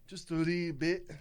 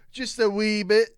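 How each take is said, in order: First: Said in the usual way. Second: Loud Scottish brogue; broad Scottish voice; Scottish accent. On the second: Pretend. Repeated louder, Scottish-ish voice.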